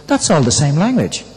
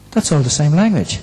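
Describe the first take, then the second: No difference in how they are said.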